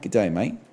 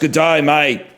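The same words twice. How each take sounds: First: Spoken in a softer, coy New Zealand accent. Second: Spoken in a loud, outgoing Australian accent. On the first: "the New Zealand accent is a little more coy" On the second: "the Australian accent is more like"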